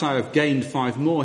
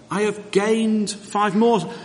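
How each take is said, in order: First: It is said flatly, in a matter-of-fact tone. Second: It is said eagerly, in an enthusiastic tone. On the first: It is merely a report of a fact. The speaker calls it wrong. "it's not just a matter of fact" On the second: The speaker is delighted with the achievement. The speaker calls it right. "That's the enthusiasm of the servant"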